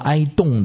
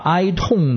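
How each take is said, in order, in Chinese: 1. 第二个音节以 'd' 音开头。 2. 第二个音节以 't' 音开头。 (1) "念成了哀动的人有福了" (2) "把哀痛的人有福了"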